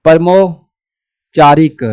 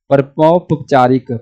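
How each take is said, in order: First: परमोपचारिक sounded out slowly, syllable by syllable; teacher spelling परमोपचारिक aloud slowly; slow sounding out. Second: Said in the usual way. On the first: Shown as a demonstration. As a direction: stretch परमोपचारिक out for the class to copy. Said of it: "teacher sounds out the word slowly". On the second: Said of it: "teacher repeats the word".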